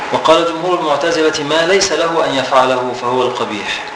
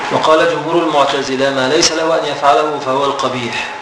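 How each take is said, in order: Both takes have the same delivery.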